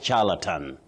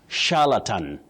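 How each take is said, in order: First: It begins with a ch sound. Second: It begins with a sh sound. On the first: The speaker calls it wrong. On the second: The speaker calls it right. "that digraph C H takes the sound sh"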